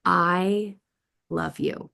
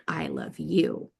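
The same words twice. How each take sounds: First: "I" then a pause before "love you"; pause inside the phrase. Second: "I love you" slowly, all in one breath; no pause, a slow falling "I love you"; smooth unbroken phrase. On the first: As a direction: split "I love you" with a pause after "I", "love you" rising. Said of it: "there's ways that we can pause". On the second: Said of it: "is very different than". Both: Shown as a demonstration.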